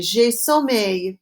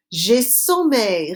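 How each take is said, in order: First: J'ai sommeil said slowly again for the class; slow repeat. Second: J'ai sommeil said slowly and clearly; slow model phrase. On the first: Teacher repeating the phrase slowly after Répétez. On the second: Teacher slowly modelling a phrase for the class. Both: Shown as a demonstration. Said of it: "Répétez".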